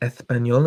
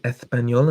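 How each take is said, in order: First: The S is soft and lisped. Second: The same.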